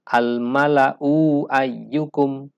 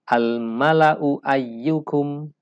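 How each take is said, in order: First: The vowel after the hamzah is drawn out long. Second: The vowel after the hamzah is kept short. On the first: The speaker calls it wrong. "Tidak dibaca dengan" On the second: The speaker calls it right. "Tetapi dibaca"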